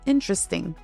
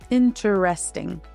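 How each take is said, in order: First: One syllable is reduced or dropped. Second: Every syllable is said fully and clearly. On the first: "in natural speech, it becomes" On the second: "When spoken carefully"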